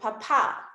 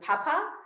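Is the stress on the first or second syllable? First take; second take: second; first. First: The stress is on the second syllable. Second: The stress is on the first syllable.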